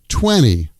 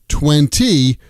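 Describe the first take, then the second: First: The T after the N is dropped. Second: The T after the N is clearly pronounced. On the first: "we say twenty" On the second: "we don't say twenty"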